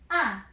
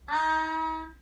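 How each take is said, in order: First: The pitch falls sharply from high to low. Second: The pitch stays high and level. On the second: "This one"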